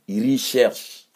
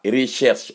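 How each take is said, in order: First: "recherche" slowly with a leading "i", iri-shersh; teacher slowly models "recherche"; correct pronunciation. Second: "recherche" as reshesh, the "r" swallowed; wrong pronunciation mocked. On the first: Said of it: "on dit recherche". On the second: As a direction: mimic the sloppy "recherche". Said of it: "on dit pas recherche". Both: Shown as a demonstration.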